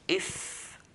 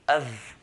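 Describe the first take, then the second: First: The consonant is a voiceless F sound. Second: The consonant is a voiced V sound. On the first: The speaker calls it right. "So f" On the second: The speaker calls it wrong. "it will sound like a V"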